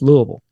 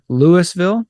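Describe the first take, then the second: First: The name is mumbled, with syllables run together. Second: The name is said clearly, with every syllable. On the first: The speaker is a local. "we all say it like we've got a bunch of bourbon and marbles in our mouth" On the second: The speaker is not from the city. "they'll say Louisville or Louisville"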